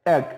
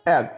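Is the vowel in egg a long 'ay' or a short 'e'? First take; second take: short e; short e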